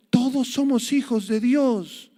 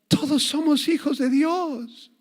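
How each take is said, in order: First: High, slow, mocking quote; quoting the Pope. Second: High, slow, sugary mock smile; smiling mock quote. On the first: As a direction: imitate the Pope's phrase with a sneer. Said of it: "dijo ... el Papa Francisco". (cita burlona, aguda y lenta) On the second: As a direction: sing it out sweetly with a fake smile. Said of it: "con una gran sonrisa". (cita burlona, aguda y sonriente)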